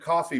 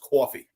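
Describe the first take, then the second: First: It is said in a neutral accent. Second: It is said in a New York accent.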